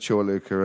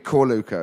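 First: The name begins with a CH sound. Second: The name begins with a hard K sound. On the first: The speaker calls it right. "the right pronunciation" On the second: The speaker calls it wrong. "it'd always be Corluca instead of Chorluca"

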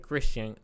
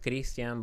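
First: The name has an American English pronunciation. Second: The name has a non-American pronunciation. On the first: This is how local people say the name. The speaker calls it right. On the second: This is how the speaker first said his own name. The speaker calls it wrong.

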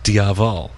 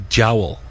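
First: The name is said the American way, like 'diavol'. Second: The name is said the Irish way, like 'jowl'. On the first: "if you're pronouncing it in kind of American English Irish" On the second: "if you're pronouncing it in Irish"

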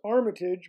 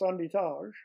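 First: It is said with an English pronunciation. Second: It is said with a Quebec French pronunciation.

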